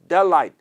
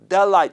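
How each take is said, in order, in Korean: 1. 단어가 이어지고 t는 발음하지 않아요. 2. 단어가 이어지고 t는 발음하지 않아요.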